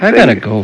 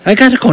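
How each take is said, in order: First: It is said in a casual, unforceful way. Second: It is said firmly, with forceful emphasis. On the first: The speaker calls it wrong. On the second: The speaker calls it right.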